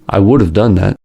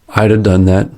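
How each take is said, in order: First: Would is said in full with a flapped D. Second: Contracted, and the final consonant of have is dropped. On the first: "The D in would becomes a flap T" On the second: "In the most rapid speech, the final consonant of the function word may also be dropped"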